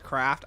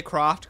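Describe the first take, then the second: First: "Craft" to rhyme with "raft"; the a version of the name, "Craft"; "Craft" variant. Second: The o version of the name, "Croft"; "Croft" variant. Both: Shown as a demonstration. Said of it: "They say Croft, Craft".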